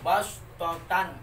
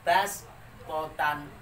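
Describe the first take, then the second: First: The s sound is heavy and deep. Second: The s sound is light and thin. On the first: This is how it is written. "Tulisannya itu bas totan" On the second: This is how it must be read. "harus diganti menjadi huruf sin"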